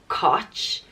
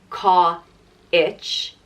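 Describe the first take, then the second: First: The vowel has no 'i' glide at all. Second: The vowel has a full, clear 'i' glide. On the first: "and it's not Koch" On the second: "It's not Ka-ich"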